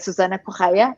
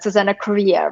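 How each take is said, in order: First: The surname is said without an extra R sound. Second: The surname is said with an extra R sound. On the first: The speaker calls it right. "in Portuguese you say" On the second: The speaker calls it wrong. "everyone adds that extra R as you did"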